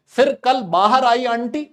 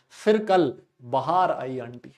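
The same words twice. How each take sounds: First: "बाहर" as baa-har, high, loud and slow; long first vowel in बाहर. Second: "बाहर" as ba-haar, low and slow; बाहर turned to bahaar. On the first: Teacher quoting how some recite the mnemonic, high loud "बाहर" as baa-har. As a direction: say "बाहर" with stretched first syllable, pitched up. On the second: Teacher quoting others' version of the mnemonic, low slow "बाहर" as ba-haar. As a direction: stretch the second syllable of "बाहर", pitched down. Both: Shown as a demonstration. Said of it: "कुछ लोग ऐसे बोलते हैं".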